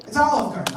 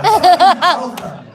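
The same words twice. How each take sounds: First: Said in the usual way. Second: Louder, slower, exasperated; louder, drawn-out It's Olive Garden; exasperated outburst. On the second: Acted. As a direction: spell it out to the dumb customer. Exasperated at dumb customer.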